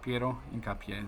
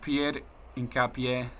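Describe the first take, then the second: First: The first name is said with a final -o. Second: The first name is said like French Pierre. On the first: The speaker calls it right. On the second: The speaker calls it wrong.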